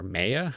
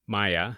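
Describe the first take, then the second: First: "Maya" said MAY-uh, first vowel like "day"; alternative pronunciation. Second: "Maya" said MY-uh, first vowel like "eye"; alternative pronunciation. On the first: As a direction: say "Maya" as MAY-uh, rising like a question. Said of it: "I would pronounce it". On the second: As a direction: say "Maya" as MY-uh, rising tentatively. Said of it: "I'm not entirely sure". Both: Shown as a demonstration.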